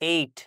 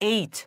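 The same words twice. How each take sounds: First: The final t is plain, without a puff of air. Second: The final t is released with a puff of air. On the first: The speaker calls it wrong. "আমরা বলি এইট, কিন্তু এখানে আসলে ট না" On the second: The speaker calls it right. "টি হয়ে যাবে ঠ"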